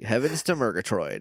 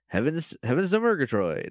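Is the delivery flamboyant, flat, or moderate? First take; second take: flat; moderate. First: The voice is flattened with little pitch movement. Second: The voice is toned down but still expressive. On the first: "Flatten it out a little bit"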